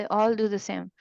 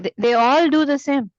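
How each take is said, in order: First: Said in the usual way. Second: Louder, higher stress on "all"; emphatic. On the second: Real, not acted. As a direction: punch "all" in "they all do the same". Teacher stresses reciters' sameness. ("all" पर ज़ोर देकर)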